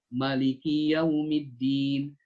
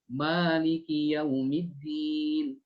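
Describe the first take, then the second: First: The first vowel is held for one beat. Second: The first vowel is held for two beats. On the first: "Atau dibaca satu harokat" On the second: "Dibaca dua"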